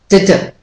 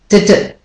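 Both takes have the same delivery.

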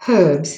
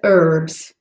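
First: The word is said in a British accent. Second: The word is said in a non-British accent.

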